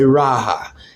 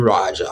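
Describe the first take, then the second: First: The J is silent, sounding like an H. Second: The J is sounded as a J. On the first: "with the silent J. ... but I would say Raha" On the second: "Maybe you want to put it in there as a Raja"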